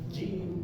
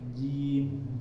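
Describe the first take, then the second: First: The j sound is pressed hard and forceful. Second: The j sound is light and flowing. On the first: The speaker calls it wrong. "J-nya itu terlalu tertekan" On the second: The speaker calls it right. "ngalir seperti gitu"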